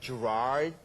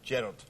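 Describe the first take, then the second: First: It is said with an American pronunciation. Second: It is said with a Scottish pronunciation. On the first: "so you guys say Gerard, you know, like Gerard" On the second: "My mum and people in Scotland, they go Gerard"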